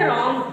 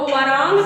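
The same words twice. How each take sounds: First: रॉन्ग starting straight on R; silent W. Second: वरांग with an extra "va" syllable in front; wrongly sounded W. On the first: Teacher gives pupils the answer, रॉन्ग with silent W. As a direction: drop the W, begin रॉन्ग on R. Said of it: "क्या पढ़ोगे?". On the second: Teacher warns pupils off the mistake, वरांग with W sounded. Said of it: "तो नहीं पढ़ लोगे". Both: Shown as a demonstration.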